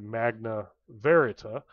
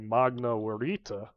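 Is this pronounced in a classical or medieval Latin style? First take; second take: medieval; classical. First: It is pronounced in medieval Latin style. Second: It is pronounced in classical Latin style. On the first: "but you would probably say" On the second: "my pronunciation is based off of classical Latin, not medieval Latin, so I am going to say"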